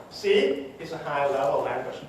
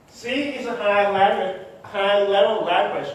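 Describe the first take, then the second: First: Said in the usual way. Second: Higher, insistent stress on "high-level language"; emphatic insistence. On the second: Shown as a demonstration. Speaker repeats a familiar programming claim to the audience, emphatic. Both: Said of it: "and I really mean it".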